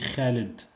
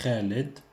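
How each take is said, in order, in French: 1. Il commence par un kh guttural et rauque. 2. Il commence par un kh guttural et rauque.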